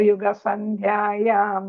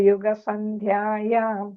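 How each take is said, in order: The two takes are said the same way.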